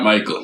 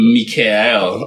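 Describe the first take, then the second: First: The name is pronounced as Michael. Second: The name is pronounced as Mikael. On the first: The speaker calls it wrong. "not Michael" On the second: The speaker calls it right. "It's actually Mikael"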